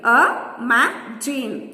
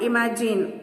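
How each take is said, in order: First: "imagine" slowly split as i, ma, gine; syllable by syllable. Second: Said in the usual way. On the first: Shown as a demonstration. Teacher counting syllables for children, "imagine" broken up slowly. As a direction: pause between the three syllables of "imagine". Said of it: "three syllables".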